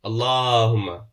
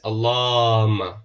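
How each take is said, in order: The two takes are said the same way.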